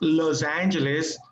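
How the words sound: The name is said with English sounds.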